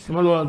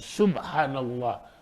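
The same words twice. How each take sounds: First: It is said hurriedly and carelessly. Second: It is said slowly and carefully.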